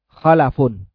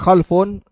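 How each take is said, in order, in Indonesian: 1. Vokal a pendek mengikuti l. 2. Bunyi l langsung diikuti f. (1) "bisa dibaca dengan fathah lam" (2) "Kalau lamnya disukun baca khalfun"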